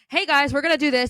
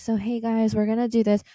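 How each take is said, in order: First: It is said loudly with high energy. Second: It is said flatly with low energy.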